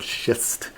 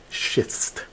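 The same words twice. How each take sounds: First: Said in the usual way. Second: Whispered schist. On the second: Shown as a demonstration. Guide clarifying the rock's name, whispering "schist". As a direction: whisper "schist" softly, voiceless, like a near-swear. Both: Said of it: "not the bad word".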